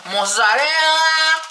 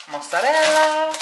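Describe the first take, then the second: First: Even higher and louder, very slow put-on Italian-ish voice; a louder, hammed-up mock Italian chef; funny voice. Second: High, drawn-out put-on Italian-ish voice; a playful mock Italian chef; funny voice. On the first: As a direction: ham it up like a TV chef. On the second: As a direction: sing out the word like a TV chef. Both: Real, not acted. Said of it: "Why am I talking like that?".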